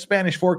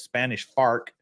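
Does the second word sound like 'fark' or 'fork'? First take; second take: fork; fark. First: The second word has an 'or' vowel. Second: The second word has an 'ar' vowel. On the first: This is how it is written. "it says Spanish fork on paper" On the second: This is how locals say it. "people there's Spanish fark"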